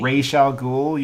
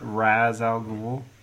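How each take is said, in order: First: The first part sounds like raysh. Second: The first part sounds like rahz. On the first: The speaker calls it right. "Raish al Ghul. You cretins" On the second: The speaker calls it wrong. "not Raz al Ghul"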